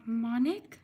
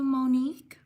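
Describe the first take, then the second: First: "Monique" said MAH-nik; "Monique" as MAH-nik, tentative and rising; alternative pronunciation. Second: "Monique" said moh-NEEK; alternative pronunciation. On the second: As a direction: say "Monique" with a long o, ending in "neek". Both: Shown as a demonstration. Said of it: "Sorry if I mispronounce your name".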